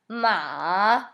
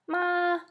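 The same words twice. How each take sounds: First: The pitch dips low, then rises. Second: The pitch stays high and level. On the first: "Third tone is like a valley" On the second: "All of those are first tone. They're very high, and they don't change at all"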